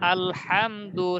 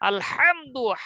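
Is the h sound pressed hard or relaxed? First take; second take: relaxed; pressed. First: The h is said lightly and naturally. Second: The h is pushed hard from the throat. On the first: "স্বাভাবিক" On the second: "শেখার সময় তো আমরা এরকম শিখবো"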